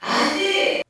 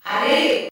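First: Much higher, distant call up the well; shout from far below. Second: Higher distant call, a bit louder; shout from below. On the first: Stable boy calling from the well bottom, distant shout. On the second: Stable boy calling again from the well, distant shout. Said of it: "cria de nouveau". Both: A narrator's reading.

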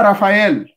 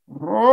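First: Said in the usual way. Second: "Raphaël" intoned in long held vowels; ritual pronunciation. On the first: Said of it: "On ne dit pas Raphaël". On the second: Shown as a demonstration. Teacher correcting the name for a rite, "Raphaël" chanted very long. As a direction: draw "Raphaël" out as a slow, sustained chant. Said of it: "on dit".

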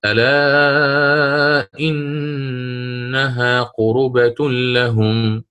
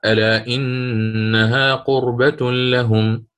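First: قربة read as qurubah, with a voweled ra, chanted very slowly; damma on the ra. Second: قربة read with a still ra, slowly chanted; sukun on the ra. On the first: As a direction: stretch ألا and say قربة with damma on the ra. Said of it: "فقرأ". (قربة بضم الراء) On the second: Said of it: "يسكن الراء فقرأ". (قربة بإسكان الراء) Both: Shown as a demonstration.

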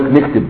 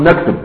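First: "نكتب" with a kasra on the nun, niktib; colloquial pronunciation. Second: "نكتب" with a fatha on the nun, naktub; standard Arabic pronunciation. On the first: Teacher quoting common folk's speech, colloquial niktib for "نكتب". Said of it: "عوام الناس تقول لك". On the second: Teacher showing students the correct form, classical naktub for "نكتب". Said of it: "اللغة الصحيحة أن تقول". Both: Shown as a demonstration.

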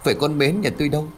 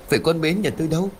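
First: Stunned. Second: Fast, high anguished cry. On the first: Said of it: "Ông Khởi liền sửng sốt". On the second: Father crying out for his missing daughter, fast and high. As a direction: blurt it out in panic, much higher. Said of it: "Đoạn chú liền hét lên". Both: A narrator's reading.

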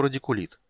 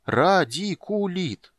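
First: Said in the usual way. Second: "Радикулит" drawn out very slowly, syllable by syllable; slow, savouring. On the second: A narrator's reading. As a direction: taste each syllable of "Радикулит", high and slow. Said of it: "медленно повторил Тасс, пробуя слово на вкус". (медленно смакуя «Радикулит»)

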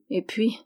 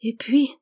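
First: "et puis" left hanging, unfinished; "et puis" as a halting lead-in; hesitant trailing-off. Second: Put-on "Et puis" as a child's prompting question; little girl gravely prompting "Et puis". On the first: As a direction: stall on "et puis", reluctant to go on. Man hesitates over the bad news. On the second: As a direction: interrupt with "Et puis", rising and serious. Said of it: "interrompit gravement la petite". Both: A narrator's reading.

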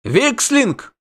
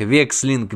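First: High, alarmed exclamation; cried out. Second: Said in the usual way. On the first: A narrator's reading. Innkeeper recognises the monster's name, crying out. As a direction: cry it out, pitched high. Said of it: "выкрикнул трактирщик".

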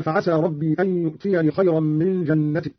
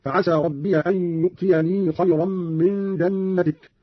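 First: Said in the usual way. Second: ربي as "rabbiya", يؤتيني with long final ii; fatha, sounded ya. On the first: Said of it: "قرأ قالون بفتح ياء ربي". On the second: Shown as a demonstration. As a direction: slowly say ربي with added a, hold the end of يؤتيني. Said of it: "بفتح ياء ربي وصلا".

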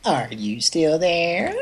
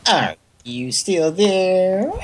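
First: Slow, drawn-out recorded prompt; snippy voicemail voice. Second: High, very slow needy prompt; clingy voicemail voice. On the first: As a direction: mimic a snooty answering machine. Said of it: "the bitchiest voicemail recordings ever". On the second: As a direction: stretch it out like a clingy girlfriend. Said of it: "like a clingy girlfriend or something". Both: Retold or imitated.

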